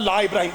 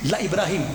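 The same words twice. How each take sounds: First: The vowel in 'la' is drawn out long. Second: The vowel in 'la' is kept short. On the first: It sounds like a word of negation. The speaker calls it wrong. "जो मेरी तरह अनपढ़ लोग होता है वो कहता है ला इब्राहिम, वो गलत है" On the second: It stresses that the statement is certain. The speaker calls it right. "लामे ताकीद लगा के अल्लाह कुरान में कहता है"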